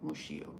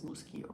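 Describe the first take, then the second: First: The middle consonant is a 'sh' sound. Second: The middle consonant is not a 'sh' sound. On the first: The speaker calls it wrong. "not Muschio" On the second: The speaker calls it right. "it's not a sh, sh sound, so it is Muschio"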